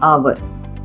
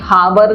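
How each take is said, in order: First: The word begins directly with a vowel sound. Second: The word begins with an audible h sound. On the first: The speaker calls it right. "एच silent हो जाएगा" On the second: The speaker calls it wrong. "हावर नहीं पढ़ते इसको, ह का sound नहीं आता"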